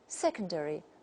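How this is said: It is said with a British accent. "the first version takes the British model"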